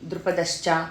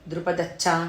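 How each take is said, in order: First: The final cluster has an sh before ch. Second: The final cluster is a doubled ch. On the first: The speaker calls it right. "షా కింద చావొత్తులు" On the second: The speaker calls it wrong. "అందరు ఏం చేస్తున్నారు"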